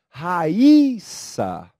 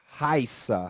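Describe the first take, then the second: First: The word is said in three syllables. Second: The word is said in two syllables. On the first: "Ra, i, sa. Veja, aqui o i tem força" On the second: "aqui há um ditongo. São duas sílabas"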